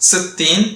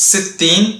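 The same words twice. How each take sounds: No difference in how they are said.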